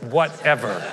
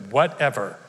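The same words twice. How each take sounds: First: "Whatever." tossed off with a laugh, a little lower; disdainful whatever. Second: "Whatever." with an eye-roll kind of disdain; disdainful whatever. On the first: Pastor demoing the eye-roll "Whatever.". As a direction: roll your eyes as you say it. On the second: Pastor demoing disdain on "Whatever.". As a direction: dismiss it with a hair flip. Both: Shown as a demonstration. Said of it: "you have to say it with an eye roll and a hair flip".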